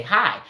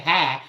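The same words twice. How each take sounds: First: Said in the usual way. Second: "hi" with the vowel flattened to "hah"; Southern "hi". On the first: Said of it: "We say hi". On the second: Shown as a demonstration. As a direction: say "hi" the Georgia way, as "hah". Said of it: "We don't say hi".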